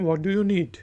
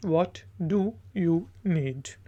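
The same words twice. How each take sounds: First: Said in the usual way. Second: What do you need? said at half speed, each word spaced out; slow, clear repeat. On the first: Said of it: "first take before translation". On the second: Shown as a demonstration. Teacher repeating the phrase slowly for learners. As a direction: drag it out so learners can copy. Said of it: "repeat for learners after translation".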